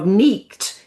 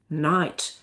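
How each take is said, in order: First: The vowel is a long ee sound. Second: The vowel is an eye sound. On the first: This is the older pronunciation. "The E of neeked" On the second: This is the later pronunciation. "became I"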